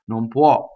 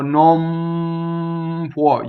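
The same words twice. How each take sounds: First: The nasal passes quickly into the next word. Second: The nasal on the lips is held too long. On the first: The speaker calls it right. "it goes by so fast nobody should notice" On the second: The speaker calls it wrong. "it's going to be weird. It's going to be exaggerated"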